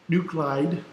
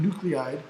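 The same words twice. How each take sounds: First: "Nuclide" said as NOO-klide; two-syllable pronunciation. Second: "nuclide" said as NOO-klee-ide; three-syllable pronunciation. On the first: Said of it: "but it's spelled nuclide". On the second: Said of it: "it's often pronounced nuclide". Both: Shown as a demonstration.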